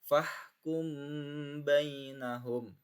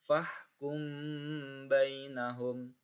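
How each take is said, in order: No difference in how they are said.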